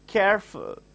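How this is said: The two syllables are said separately. The speaker calls it right. "you have to just make sure you are cutting that"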